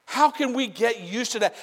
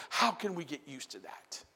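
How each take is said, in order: First: Higher and louder; preached louder. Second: Said in the usual way. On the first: Real, not acted. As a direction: lift it into a cry. Repeat then louder.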